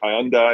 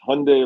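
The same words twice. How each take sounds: First: The ending does not sound like 'Sunday'. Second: The ending sounds like 'Sunday'. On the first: This is how it is said in the UK. "in the U K, it's like Hyundai" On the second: This is how the company head said it. "It's Hyundai like Sunday"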